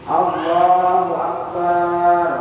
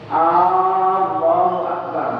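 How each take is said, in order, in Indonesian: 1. Suku kata terakhir bar dibunyikan panjang. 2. Huruf vokal awal pada Allah dipanjangkan. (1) "barnya panjang" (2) "Memanjangkan huruf hamzah pada kata Allah"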